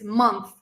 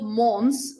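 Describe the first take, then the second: First: The word is said with a clear th sound. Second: The th sound is dropped, leaving only s. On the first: The speaker calls it right. "It's month. ... you have th" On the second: The speaker calls it wrong. "It's not mons"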